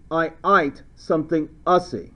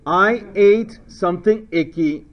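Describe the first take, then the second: First: Mock Australian, ATE said like "ite"; playful Australian vowels; Australian accent. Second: Said in the usual way. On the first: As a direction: switch into a joking Aussie accent. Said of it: "if you're Australian". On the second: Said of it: "Or if you're Australian".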